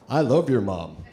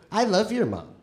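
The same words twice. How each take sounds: First: It is said in a man's voice. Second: It is said in a woman's voice.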